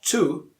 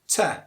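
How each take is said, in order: First: The word is said in its full strong form. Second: The word is reduced to a weak vowel. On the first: The speaker calls it wrong. "To is again a strong form" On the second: The speaker calls it right. "Te, not to"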